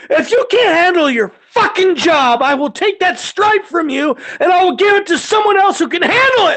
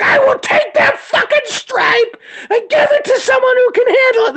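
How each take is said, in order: First: High, forceful angry threat; heated, raised-pitch dressing-down; re-enacted yelling. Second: Shrieked, very high-pitched threat; gleefully over-the-top re-enacted yelling; mock threat. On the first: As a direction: chew out a subordinate at full voice. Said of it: "it's about to get yelling". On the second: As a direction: holler it way up high, hammed-up. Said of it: "When you threaten me".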